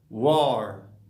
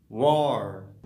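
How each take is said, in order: No difference in how they are said.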